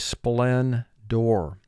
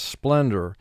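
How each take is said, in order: First: The final syllable is full, like door. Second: The final syllable is reduced and weak. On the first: This is said to help with spelling. "for spelling, we'll say splendor" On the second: This is how it is said in everyday talk. "the way we say it in conversation is splendor"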